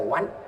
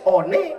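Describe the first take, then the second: First: The word is said as 'wan'. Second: The word is sounded out as spelled. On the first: This is how the word is actually read. "dibaca one" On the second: This is how the word is written. "one dibaca"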